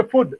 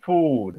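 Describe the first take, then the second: First: "food" with a short, higher-pitched OO, like "fud"; wrong short vowel. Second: "Food" with a drawn-out OO, falling; long vowel. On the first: Trainer shows an improper sound, wrong short-vowel pronunciation. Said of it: "short vowel and long vowel sounds". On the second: Trainer demonstrates long vowels to teachers, long-vowel pronunciation. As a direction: stretch the OO in "Food". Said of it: "long vowel sound". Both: Shown as a demonstration.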